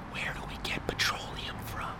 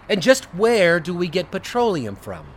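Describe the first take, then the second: First: It is whispered. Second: It is said in a normal voice.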